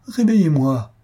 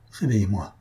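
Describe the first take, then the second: First: Louder and higher, crying out; loud second plea to be woken; desperate cry. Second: Said in the usual way. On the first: A narrator's reading. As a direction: throw the repeat out as a final desperate shout.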